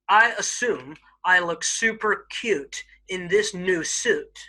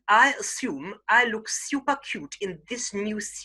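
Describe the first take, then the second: First: It is said in an American accent. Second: It is said in a very posh British accent. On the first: "I'll first do it in an American accent" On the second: "a very posh Queen's English"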